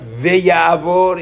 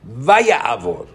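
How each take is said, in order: First: The first syllable has an 'e' vowel. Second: The first syllable has an 'a' vowel. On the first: The speaker calls it wrong. "It's not ve'yavor" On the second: The speaker calls it right. "It's va'yavor"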